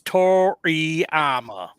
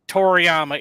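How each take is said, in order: First: The name is said with a Southern accent. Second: The name is said without a Southern accent. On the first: The speaker calls it right. "It's the way we say it here down in the South" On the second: The speaker calls it wrong. "His name's not Toriyama"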